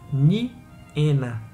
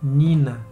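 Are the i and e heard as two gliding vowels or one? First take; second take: two vowels; one vowel. First: The i and e glide together as two vowels. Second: The i and e merge into one ee vowel. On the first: The speaker calls it right. "com as duas vogais I e E soando unidas" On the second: The speaker calls it wrong. "e não"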